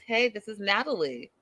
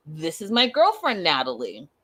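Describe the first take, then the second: First: Said in the usual way. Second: Put-on girlfriend said proudly, Natalie dropping low; formal title intro. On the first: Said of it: "he says". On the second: What she hoped he'd say to his friends, proudly. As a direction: present her as the girlfriend. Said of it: "She was expecting a title".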